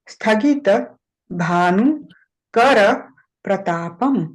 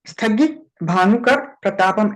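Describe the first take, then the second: First: It is said slowly with every syllable full. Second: It is said quickly with clipped, half syllables. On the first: The speaker calls it right. "धीरे धीरे शांति से बोलो" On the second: The speaker calls it wrong. "ऐसे नहीं बोलना है बेटा"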